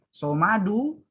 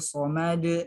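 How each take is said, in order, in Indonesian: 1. Kata ini berakhir dengan vokal -u. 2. Kata ini berhenti pada konsonan terakhir.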